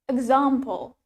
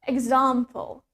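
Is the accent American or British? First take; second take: British; British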